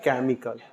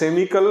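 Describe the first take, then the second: First: The word begins with a k sound. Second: The word begins with an s sound. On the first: The speaker calls it right. "क्या पढ़ना है इसको?" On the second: The speaker calls it wrong. "या सेमिकल नहीं पढ़ना"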